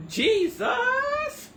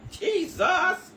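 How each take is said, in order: First: Very high, loud wail of Jesus; Jesus wailed with a sob in it; crying Jesus. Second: High, loud cry of Jesus; Jesus flung out loud and rising; shouted Jesus. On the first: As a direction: cry Jesus out, near tears. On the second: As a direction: call out Jesus in shock. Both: Real, not acted. Exclaiming in disbelief, half crying.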